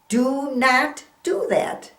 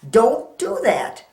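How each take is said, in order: First: Do and not are said as separate words. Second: Do and not merge into one syllable. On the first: "Do not is the same as saying don't" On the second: "kind of put it together and say don't"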